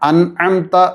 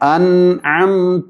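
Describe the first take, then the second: First: The nasal sounds are cut short. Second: The nasal sounds are held longer. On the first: The speaker calls it wrong. "ഉച്ചരിക്കാൻ പാടില്ലാത്ത രീതി" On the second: The speaker calls it right. "അല്പസമയം നീട്ടി ഉച്ചരിക്കണം"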